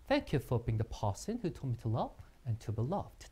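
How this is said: It is said in a British accent.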